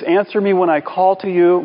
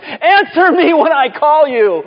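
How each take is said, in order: First: It is read in a calm, plain voice. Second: It is said in a distressed, pleading voice.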